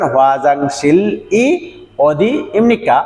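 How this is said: The words are separated by short pauses. "যদি আপনি থেমে থেমে পড়েন"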